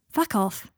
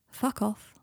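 First: Said in the usual way. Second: Understated, toneless brush-off; empty. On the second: A narrator's reading. Draco deflecting Harry's compliment, emptily. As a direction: say it emptily, without any push. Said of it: "said Draco emptily".

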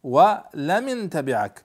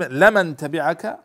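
First: "ولمن" as wa-li-man, an i after the l, slowly; kasra on the lam. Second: "لمن" as la-man, opening with an a, slow and loud; fatha on the lam. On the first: Teacher showing students the variant reading, lam with kasra. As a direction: put a short i on the lam of "ولمن". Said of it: "بكسر اللام". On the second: Teacher setting out the usual reading, lam with fatha. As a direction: open "لمن" on a clear "la". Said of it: "ولمن تبعك بكسر اللام". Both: Shown as a demonstration.

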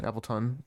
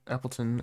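First: "Appleton" ending in an aspirated "tun"; full last vowel. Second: Said in the usual way. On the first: Shown as a demonstration. Trying out the name for friends, "Appleton" with fuller "ton". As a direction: say "Appleton" with the final "ton" pronounced fully. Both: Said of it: "depends on how you say it".

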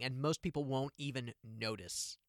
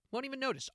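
First: Said in the usual way. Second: High emphatic echo. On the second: Real, not acted. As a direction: repeat it much higher.

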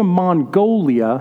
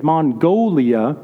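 First: "Mongolia" in grandma's way, nasal first syllable; lightly imitating grandma saying "Mongolia". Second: "Mongolia" drawn out slowly with a rise at the end; grandma's slow rising "Mongolia". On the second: Retold or imitated. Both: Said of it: "that's how she'd say it".

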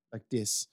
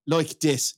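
First: Soft, tentative go at Dublin; Dublin accent. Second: Broadened Dublin vowel in "like"; Dublin accent. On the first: Host fumbling the referee's voice, hesitant Dublin accent. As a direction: try out a Dublin accent quietly. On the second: Host imitating the referee for co-hosts, broad Dublin attempt. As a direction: have another go at Dublin, "like" nearly "loike". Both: Retold or imitated. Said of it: "speaking in his Dublin accent".

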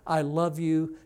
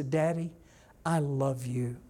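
First: Said in the usual way. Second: Gently sincere, unhurried; a child's tender declaration, lightly voiced; heartfelt. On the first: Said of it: "none of those times were they actually feeling". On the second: Shown as a demonstration. Child telling daddy once, looking in his eyes, heartfelt. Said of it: "look in your eyes and say".

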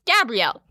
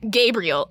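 First: "Gabrielle" said the French way, ga-bree-ELL. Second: "Gabriel" said the English way, GAY-bree-el. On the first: The narrator quoting Cordelia, saying Gabrielle the feminine way. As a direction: stress the last syllable of "Gabrielle". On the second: The narrator quoting Cordelia, saying Gabriel the usual English way. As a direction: stress the first syllable of "Gabriel". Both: Retold or imitated. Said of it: "Gabrielle was Gabrielle".

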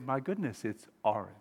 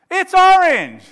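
First: Soft, low wonder; hushed realisation. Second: Very loud, high insistence; shouted retort. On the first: Friend seeing the other's perspective, hushed realisation. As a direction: concede it quietly as it dawns. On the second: Friend arguing over a card colour, angry shout. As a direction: yell it back to win the argument. Acted quarrel escalating. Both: Acted.

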